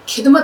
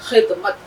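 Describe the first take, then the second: First: The word begins with a plain hard sound. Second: The word begins with a raspy throat sound. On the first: The speaker calls it wrong. "आप नहीं बोलेंगे" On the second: The speaker calls it right. "खे की आवाज"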